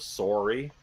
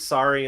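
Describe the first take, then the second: First: Sorry is said with a Canadian vowel. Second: Sorry is said without a Canadian vowel. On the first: The speaker calls it wrong. "to not sound too Canadian" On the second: The speaker calls it right. "say sorry instead of sorry"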